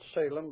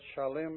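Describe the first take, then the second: First: The name is said in its English form. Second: The name is said in its Hebrew form. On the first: "The English pronunciation Salem" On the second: "you call it Shalem if you wish"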